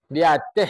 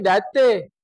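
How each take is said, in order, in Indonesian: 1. Frasa "di atas" diucapkan lengkap, dua kata. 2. Frasa "di atas" disingkat menjadi satu kata yang dipotong. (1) "Orang Minang sebut di atas" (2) "Orang Medan tukang singkat"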